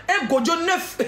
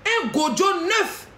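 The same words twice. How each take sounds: First: Said in the usual way. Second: "Un gojo neuf" stretched out slow, rising at the end; slow mocking drawl. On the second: To the rival, mocking her newborn with a slow, drawn-out "Un gojo neuf".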